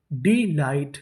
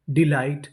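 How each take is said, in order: First: delight split as डी, light; syllable by syllable. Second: Said in the usual way. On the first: Shown as a demonstration. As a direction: sound out delight in two parts. Teacher sounding out new word.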